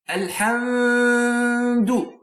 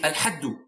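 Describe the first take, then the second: First: The m is held with a long nasal hum. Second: The m is left out completely. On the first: "it's not correct. No, there is no ghunna here" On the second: "idgham, which is omission or a deletion"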